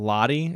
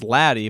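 First: The word is said with a put-on accent. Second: The word is said in a plain accent. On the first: The speaker calls it wrong. "I know I kept saying Lottie" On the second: The speaker calls it right. "It's Laddie"

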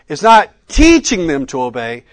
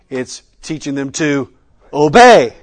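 First: The stress is on teaching. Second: The stress is on obey.

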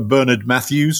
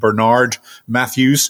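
First: It is said in a British accent. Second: It is said in an American accent.

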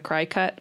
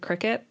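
First: The first syllable sounds like cry. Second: The first syllable sounds like crick. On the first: The speaker calls it wrong. "some people pronounce this machine as a cry cut, which I think is silly" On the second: The speaker calls it right. "It is a Cricut. There's a little picture of a bug in the logo"

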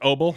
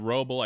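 First: The name begins with a vowel sound. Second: The name begins with an R sound. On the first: "I think the W and the R are silent" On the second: "I think is how you say it"

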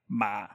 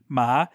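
First: The pitch is very low, like a grumble. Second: The pitch starts fairly high and rises. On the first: "and then just a low, like grumble tone" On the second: "and then a high rising"

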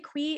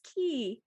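First: It begins with a 'kw' sound. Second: It begins with a plain 'k' sound. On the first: The speaker calls it wrong. "You don't say quee" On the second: The speaker calls it right. "it's key"

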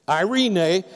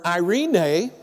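No difference in how they are said.

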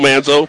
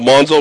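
First: The first vowel sounds like the 'a' in 'an'. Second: The first vowel sounds like the 'o' in 'on'. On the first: The speaker calls it wrong. "I apologize for pronouncing it Manzo" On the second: The speaker calls it right. "his last name is Monzo, not Manzo"

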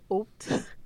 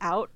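First: The vowel sounds closer to 'oh', like 'oat'. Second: The vowel is a plain standard 'ow' sound. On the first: "Sometimes I'll say oat" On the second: "I like saying out"

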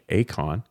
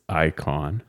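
First: The first syllable sounds like 'ah'. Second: The first syllable sounds like 'eye'. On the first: "it could also be like Akon" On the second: "I pronounce this watch as Icon"

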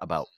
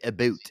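First: It is said with an American accent. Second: It is said with a Canadian accent.

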